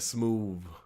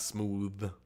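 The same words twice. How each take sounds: First: The word ends with a v sound. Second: The word ends with a th sound. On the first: The speaker calls it right. "smooth with a V" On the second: The speaker calls it wrong. "Not smooth"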